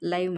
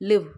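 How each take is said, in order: First: The vowel sounds like 'eye'. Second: The vowel sounds like 'ih'. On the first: Something is happening right now, as it is broadcast. "இந்த எல்ஐவிஇ இந்த ப்ரொனன்சியேஷனுக்கு உண்டான meaning" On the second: Someone resides somewhere. "இந்த எல்ஐவியை வேறு எப்படி சொல்லலாம்? லிவ்"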